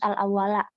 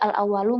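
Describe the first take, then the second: First: The word ends with an a vowel. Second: The word ends with a u vowel. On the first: The word is in the accusative case. The speaker calls it right. "harus al-awwala" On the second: The word is in the nominative case. The speaker calls it wrong. "Nggak boleh al-awwalu"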